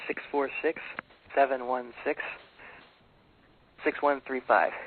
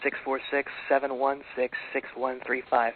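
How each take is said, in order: First: The number is said slowly and deliberately. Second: The number is said at normal, quicker speed.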